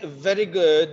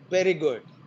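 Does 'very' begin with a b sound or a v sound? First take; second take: v sound; b sound. First: The word very begins with a v sound. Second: The word very begins with a b sound. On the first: The speaker calls it right. "If you want to say very good" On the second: The speaker calls it wrong. "they are pronounced as ber"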